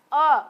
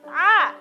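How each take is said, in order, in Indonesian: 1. Vokalnya bulat, dengan mulut hampir tidak terbuka. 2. Vokalnya terbuka, dengan mulut terbuka lebar. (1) "Jangan o, o. Kayak orang tidak semangat" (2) "tapi a, a, a"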